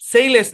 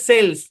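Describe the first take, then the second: First: The vowel sounds like 'sail', with an extra syllable. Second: The vowel sounds like 'sell', in one syllable. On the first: The speaker calls it wrong. "সেইলেস না" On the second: The speaker calls it right. "এটা হচ্ছে সেলস"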